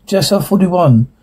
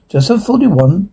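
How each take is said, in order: First: Said in the usual way. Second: "forty-one" rising into a question; questioning echo. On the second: Acted. Character checking directions just heard, questioning. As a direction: repeat it back, lifting "forty-one" at the end. Line echoed back as question.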